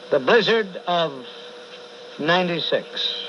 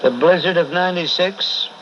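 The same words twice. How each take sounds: First: Said in the usual way. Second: Louder, declaimed like a sermon; louder proclamation. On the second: Acted. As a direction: proclaim it to the room.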